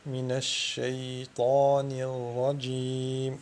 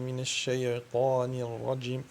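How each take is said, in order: First: The y sound flows smoothly without any bounce. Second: The y sound has an added bouncing echo. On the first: The speaker calls it right. "une continuité de son" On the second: The speaker calls it wrong. "Ceci est une qalqala qui n'est pas lieu d'être à ce moment-là"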